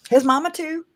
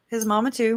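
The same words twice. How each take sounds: First: Squeaky high jab at his mama; high mock emphasis. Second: Said in the usual way. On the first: Streamer teasing about Chad's mama, squeaky high. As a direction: pitch it way up for the joke.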